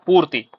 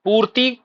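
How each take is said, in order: First: पूर्ति with a short "i" ending; correct vowel length. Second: पूर्ति with a long "ee" ending; wrong vowel length. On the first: Teacher gives students the answer, correctly pronounced. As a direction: end पूर्ति on a brief "i". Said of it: "फिर सही शब्द क्या होता है". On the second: Teacher rejects the faulty form, mispronounced. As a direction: stretch the last vowel of पूर्ति. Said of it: "सही शब्द नहीं होता है". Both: Shown as a demonstration.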